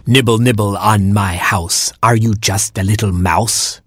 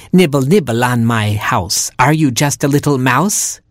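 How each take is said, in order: First: Lightly voiced crone, sing-song chant; old porcupine voice. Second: Put-on old porcupine voice. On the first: Old porcupine calling to nibblers on her house. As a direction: croon the rhyme like an old granny. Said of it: "she cried". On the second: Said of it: "she said again". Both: A narrator's reading.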